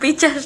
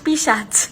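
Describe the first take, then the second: First: The ch sound comes before the s sound. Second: The s sound comes before the ch sound. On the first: The speaker calls it wrong. "ওটা পিচাস না" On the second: The speaker calls it right. "ওটা পিসাচ"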